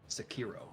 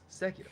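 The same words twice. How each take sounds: First: The first syllable is not stressed. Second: The first syllable is stressed. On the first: The speaker calls it wrong. "it's not Sekiro" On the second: The speaker calls it right. "emphasize the first syllables over the last sim- syllables"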